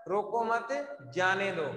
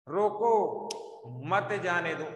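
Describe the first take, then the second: First: "रोको मत" run together, pause, then "जाने दो"; pause after मत. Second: "रोको" alone, long pause, then "मत जाने दो"; firm "रोको", break, falling "मत जाने दो"; pause after रोको. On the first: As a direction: join "मत" to "रोको", let "जाने दो" fall. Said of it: "इसका अर्थ क्या निकल रहा है?". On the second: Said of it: "उल्टा हो गया सीधा ही". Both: Shown as a demonstration.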